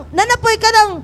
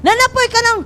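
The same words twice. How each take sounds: The two takes are said the same way.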